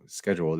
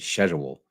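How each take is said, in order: First: It is pronounced the American way. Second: It is pronounced the British way. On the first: "they don't say" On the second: "across the pond, they say"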